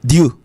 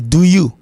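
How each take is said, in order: First: "Do you" merged to "dyoo"; contracted American "Do you", as "dyoo"; one syllable. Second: "do you" as "doo yoo"; careful, separate "do you"; two syllables. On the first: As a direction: say "Do you" in a single beat. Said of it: "avec une seule syllabe". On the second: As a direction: keep "do you" as two full beats. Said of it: "deux syllabes". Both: Shown as a demonstration.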